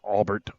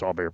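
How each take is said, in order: First: The name is said English-style, ending in bert. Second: The name is said French-style, ending in bear. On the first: This is how the person actually says his name. The speaker calls it right. "it is Albert" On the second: The speaker's French background shapes the pronunciation. The speaker calls it wrong. "I'm gonna pronounce it Allbear"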